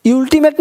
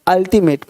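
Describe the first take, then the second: First: अल्टीमेट begun with 'yool', higher; wrong pronunciation. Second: अल्टीमेट begun with short 'ul', falling; correct pronunciation. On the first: Teacher repeating the mistake for students, wrong pronunciation. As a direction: give अल्टीमेट a 'you' onset. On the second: Teacher restating the right U sound, correct pronunciation. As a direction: open अल्टीमेट on an 'uh' vowel. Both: Shown as a demonstration. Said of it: "अल्टीमेट नहीं".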